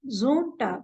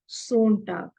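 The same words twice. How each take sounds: First: The word begins with a buzzing z sound. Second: The word begins with a hissing s sound. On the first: The speaker calls it right. "it is Sonntag ... because z, z, it is just like z" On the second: The speaker calls it wrong. "and not Sonntag"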